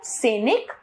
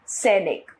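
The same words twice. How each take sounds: First: सैनिक with 'se' for 'sai'; wrong pronunciation. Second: Said in the usual way. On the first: Shown as a demonstration. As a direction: say सैनिक as say-nik, rising. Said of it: "अशुद्ध रूप". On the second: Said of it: "इसका शुद्ध रूप".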